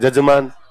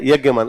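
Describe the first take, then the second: First: The word begins with a J sound. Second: The word begins with a Y sound. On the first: This is how the local dialect changes the word. The speaker calls it wrong. "अपने कहते हैं जजमान" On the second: This is the original form of the word. The speaker calls it right. "यज्ञ के अंदर जो बैठता है उसको बोलते हैं यज्ञमान"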